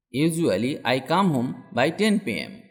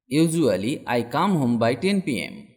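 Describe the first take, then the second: No difference in how they are said.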